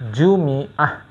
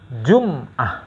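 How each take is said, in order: First: The m is followed by an i vowel. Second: The m is followed by no vowel.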